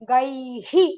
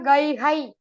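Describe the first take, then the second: First: The syllable after the h is 'hi'. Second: The syllable after the h is 'hai'. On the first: The speaker calls it right. "I will become Gai Hi" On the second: The speaker calls it wrong. "It is not Gai Hai. Don't say Hai"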